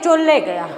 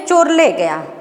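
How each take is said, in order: First: It is said quickly, with sounds merged. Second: It is said slowly and carefully.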